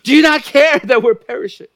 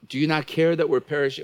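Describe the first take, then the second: First: The question is cried out in an angry tone. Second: The question is asked in a calm, mild tone. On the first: The speaker calls it right. "They said" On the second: The speaker calls it wrong. "I don't think they said it that way"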